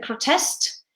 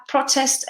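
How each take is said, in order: First: "protest" as a verb, pro-TEST; stress on second syllable. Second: "protest" as a noun, PRO-test; stress on first syllable. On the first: Teacher showing learners the verb "protest", stressed on TEST. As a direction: hit the last syllable of "protest". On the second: Teacher showing learners the noun "protest", stressed on PRO. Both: Shown as a demonstration. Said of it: "One is the noun and one is the verb".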